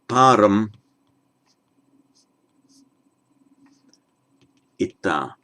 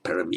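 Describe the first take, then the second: First: It is split into param and ita. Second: It is run together as one word. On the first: The speaker calls it right. "it is param ita" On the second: The speaker calls it wrong. "It is not paramita"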